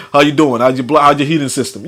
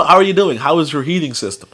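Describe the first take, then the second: First: Casual, lightly imitated phone voice. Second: Careful, proper phone voice; lightly imitated standard American caller. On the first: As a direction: run the words together casually.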